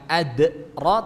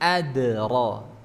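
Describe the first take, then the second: First: A glottal catch follows the d sound. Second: The d bounces with no glottal catch. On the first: The speaker calls it wrong. "bukan ad ro" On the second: The speaker calls it right. "tapi ad ro"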